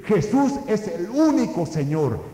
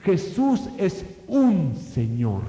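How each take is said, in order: First: Raised bold declaration on "el único"; early Christians crying out their faith, loud; proclaiming loudly. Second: "un" leaned on slowly, Jesús es un Señor drawn out; slow emphatic "un Señor" in a sermon; stress on un. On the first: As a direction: shout out "el único" as a confession. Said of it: "vociferan y dicen". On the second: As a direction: dwell on the word "un", one lord among many. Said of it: "Si ellos tan solamente hubieran dicho". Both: Retold or imitated.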